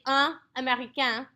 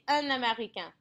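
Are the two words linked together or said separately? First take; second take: separately; linked. First: The two words are said separately, not linked. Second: The two words are pushed together, linked. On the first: The speaker calls it wrong. "I don't say un américain" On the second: The speaker calls it right. "I say un américain. They're all pushed together"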